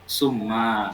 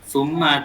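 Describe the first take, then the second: First: The first consonant is a plain s sound. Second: The first consonant is a soft th sound. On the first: The speaker calls it wrong. "lebih mirip ke sin" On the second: The speaker calls it right. "bukan summa"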